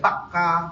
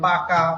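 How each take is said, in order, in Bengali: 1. k ধ্বনিটি দীর্ঘ করে বলা হয়, দ্বিত্ব। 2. k ধ্বনিটি ছোট আর একক।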